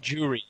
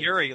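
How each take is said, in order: First: The name begins with a J sound. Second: The name begins with a Y sound. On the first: The speaker calls it right. "No, it's Ju- Juri. J O" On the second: The speaker calls it wrong. "I thought you said Yuri, like either Yuri from King of Fighters"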